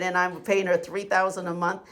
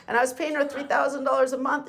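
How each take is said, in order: First: Said in the usual way. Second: "her" lifted higher, rushed fast; indignant emphasis. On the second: Real, not acted. Venting client repeating what he paid her, indignant and fast. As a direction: rattle off the fee in fast disbelief.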